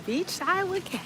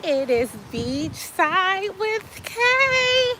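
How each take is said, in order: First: Quiet echo. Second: High, slow sing-song show title; show intro. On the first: Softer echo of show title. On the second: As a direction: stretch out the show name like a jingle. Sung-out show title call. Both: Acted.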